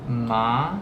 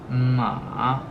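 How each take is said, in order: First: The pitch rises from middle to high. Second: The pitch falls low and then rises. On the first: "also the second tone" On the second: "So first it's falling and it's rising"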